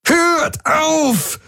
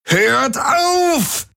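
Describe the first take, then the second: First: High, desperate roar. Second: High, sobbing scream, stretching auf; crying roar. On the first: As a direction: scream him to stop. (verzweifelt brüllen) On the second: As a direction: break down while screaming. (schluchzend schreien) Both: A narrator's reading. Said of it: "brüllte Jun".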